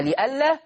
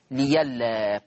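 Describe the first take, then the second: First: لئلا with its hamza sounded. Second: ليلا with y in place of hamza; ya replacing hamza. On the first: Teacher recapping the original word, hamza kept in لئلا. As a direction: keep the glottal stop in لئلا. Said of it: "تبدل ياء". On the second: Teacher recapping the result, hamza turned to ya in ليلا. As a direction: turn the glottal stop to y in ليلا. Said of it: "فتصير ليلا". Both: Shown as a demonstration.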